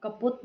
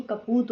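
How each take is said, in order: First: कपूत said as कपुत, short u; mistaken vowel. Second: Said in the usual way. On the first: Shown as a demonstration. Teacher rejecting an error, mistaken vowel. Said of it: "नहीं". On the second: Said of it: "होता है".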